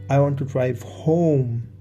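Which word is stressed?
home. The word "home" is stressed. Home is the destination rather than elsewhere. "Home is where I want to go"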